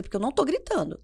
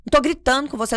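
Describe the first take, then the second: First: Controlled protest at normal volume; composed denial. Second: Loud, high protest, imitating an exasperated mother; shouted denial. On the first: Retold or imitated. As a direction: say it without shouting, reining yourself in. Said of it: "Aí eu respiro, sento". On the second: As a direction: insist you're not shouting, at a near shout. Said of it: "Por que que você tá gritando?".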